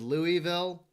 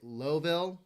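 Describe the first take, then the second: First: The name is said in the usual outsider way. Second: The name is shortened to a clipped Lowville form. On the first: This is how outsiders usually say it. "Everybody else says Louisville" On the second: This is another way outsiders say it. "or they say Lowville"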